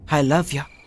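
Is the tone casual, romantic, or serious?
casual. It is said in a casual, offhand tone. "ఇలా కాదు"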